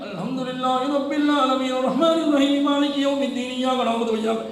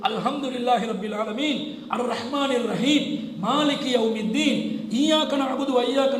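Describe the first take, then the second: First: All verses run together in one breath. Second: There is a pause after each verse. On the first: It shows off the reciter's skill. The speaker calls it wrong. "மூச்சு ஒரே விஷயத்துல" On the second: It follows the way the Prophet recited. The speaker calls it right. "ஆயத் ஆயத்தா ஓதுவாங்க"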